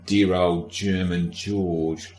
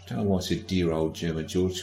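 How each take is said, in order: First: Put-on dear old German George stretched slow, each word lingered; drawn-out fond mock. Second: Said in the usual way. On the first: Shown as a demonstration. Podcaster drawls a mock-fond name for the king, slowly.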